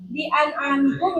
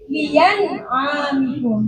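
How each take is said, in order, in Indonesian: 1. Hamzah muncul setelah suku kata pertama. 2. Bunyi y muncul setelah suku kata pertama. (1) "yang asalnya"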